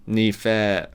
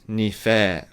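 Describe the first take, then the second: The two takes are said the same way.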